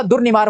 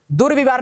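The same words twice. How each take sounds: First: दुर्निवार with ni after dur; corrected n. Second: दुर्विवार with vi after dur; mistaken v. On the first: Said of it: "होता है". (दुर्निवार, र के बाद नि) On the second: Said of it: "नहीं होता". (दुर्विवार, र के बाद वि) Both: Shown as a demonstration.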